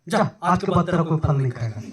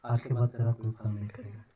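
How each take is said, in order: First: A half-laughing, slightly louder curse; mock-stern curse spoken up a little; mild loud curse. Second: Soft, muttered curse under the breath; a quiet, low-key curse on the fig tree. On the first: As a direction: send the tree off with a firmer, amused command. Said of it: "जोर से कैसे बोला?". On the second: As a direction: lay the curse on it softly, almost to yourself. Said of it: "ऐसे बोला होगा". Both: Shown as a demonstration.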